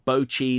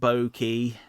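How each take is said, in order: First: The middle consonant is a ch sound. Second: The middle consonant is a k sound. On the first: The speaker calls it right. "Bochi, not Boki" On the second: The speaker calls it wrong. "not Boki"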